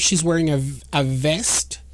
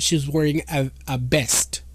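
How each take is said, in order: First: The last word begins with a V sound. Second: The last word begins with a B sound. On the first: "oh, she's wearing a, a vest" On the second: "Spanish speakers, for example, have a problem with the B and the V"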